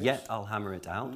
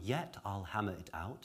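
First: It is said in an original Shakespearean accent. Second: It is said in modern received pronunciation.

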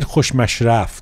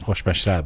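First: The word ends with an f sound. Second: The word ends with a b sound. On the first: The speaker calls it wrong. "So I said khoshmashraf. That's not a word, right?" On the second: The speaker calls it right. "No, it's khoshmashrab"

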